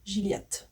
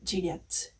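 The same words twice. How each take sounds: First: It is said with a French pronunciation. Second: The same.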